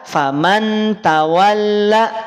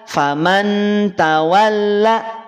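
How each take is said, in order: Both takes have the same delivery.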